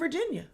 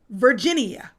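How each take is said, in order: First: The word is said with its usual syllables. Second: The word is stretched with an added syllable.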